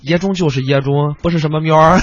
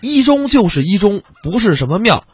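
First: It is said in the local Wei county accent. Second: It is said in standard Mandarin.

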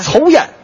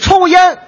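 First: It is said with a Tianjin accent. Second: It is said in Standard Mandarin.

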